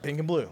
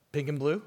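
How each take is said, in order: First: Pink and blue with a falling end, a small laugh; flat confirming answer. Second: Pink and blue with a rising, questioning end; puzzled question. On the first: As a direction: confirm it flatly, half laughing. Barista flatly confirms, laughing. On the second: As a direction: ask it back in mild disbelief. Customer echoes order as question. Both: Retold or imitated.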